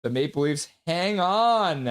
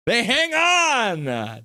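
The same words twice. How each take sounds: First: Measured final-whistle call, slightly raised; play-by-play call. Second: High, drawn-out victory cry; excited winning call. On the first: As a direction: call the win, holding back the big shout. Calls the final moments of win. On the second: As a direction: stretch it out high as the win lands. Repeats the winning call, bigger. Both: Real, not acted.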